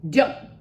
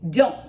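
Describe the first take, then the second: The two takes are said the same way.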